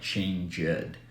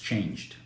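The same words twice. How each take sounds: First: The ending is said as an extra syllable. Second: The ending is a plain d sound. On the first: The speaker calls it wrong. "we don't pronounce like" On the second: The speaker calls it right. "It's changed"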